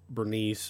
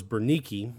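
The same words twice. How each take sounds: First: Bernice in two syllables, ending "-neess"; alternative pronunciation. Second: Bernike with a sounded final "-kee"; proper pronunciation. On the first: Teacher offering the other name form, Bernice pronounced English-style with silent final e. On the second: Teacher giving the wife's name the more proper way, Bernike pronounced with final "-kee". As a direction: say Bernike in three syllables, ending "-kee". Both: Shown as a demonstration. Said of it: "Bernike is probably the more proper, uh, way to pronounce it".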